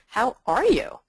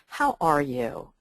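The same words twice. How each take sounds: First: It is said in a coach's tone. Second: It is said in a therapist's tone.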